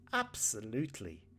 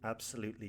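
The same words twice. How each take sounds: First: The word is said with lively, emphatic intonation. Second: The word is said flat, without lively intonation. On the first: The speaker calls it right. "this is why the intonation is incredibly important" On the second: The speaker calls it wrong. "That sounds ridiculous"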